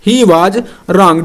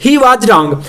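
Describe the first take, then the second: First: He was wrong, stretched out word by word; drawn-out dictation of he was wrong; slow dictation. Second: Said in the usual way. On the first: Shown as a demonstration. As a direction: spell it out slowly for the class to write. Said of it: "dictating slowly to write". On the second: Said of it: "repeats at normal pace".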